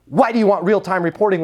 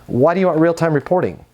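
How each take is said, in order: First: The question "Why do you want real-time reporting?" pushed hard and accusing; aggressive tonality. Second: Said in the usual way. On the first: Shown as a demonstration. Rep mimicking his own pushy tone to a client. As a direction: demand it like an accusation. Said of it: "with that tonality". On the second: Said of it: "tonality really doesn't matter".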